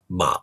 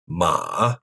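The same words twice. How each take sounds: First: The pitch stays low throughout. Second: The pitch dips low then rises slightly. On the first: "in normal speech, it's usually just a low tone" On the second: "The third tone dips down low and then rises a bit"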